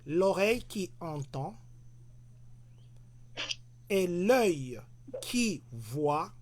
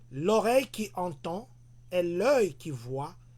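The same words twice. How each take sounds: First: It is read very slowly. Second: It is read at a normal speed.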